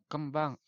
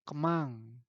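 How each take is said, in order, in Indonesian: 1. Bunyi b yang jelas terdengar setelah m. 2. Tidak ada bunyi b yang terdengar setelah m. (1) "kembang E" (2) "sok aya nyebut kieu nya kemang. B nanti teu aya"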